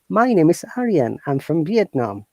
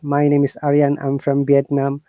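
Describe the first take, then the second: First: It is said lively, with the tone moving. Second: It is said flat, with unchanging tone. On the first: The speaker calls it right. "Try to use the emotional expressions" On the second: The speaker calls it wrong. "we don't talk like this"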